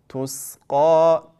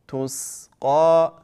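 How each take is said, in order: The two takes are said the same way.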